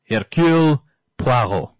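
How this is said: The name is said in a French accent.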